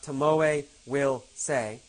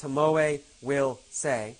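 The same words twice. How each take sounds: First: The word will is said in full. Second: The same.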